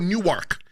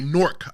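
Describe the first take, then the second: First: It is said as two syllables, like outsiders. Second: It is said as one syllable, like locals.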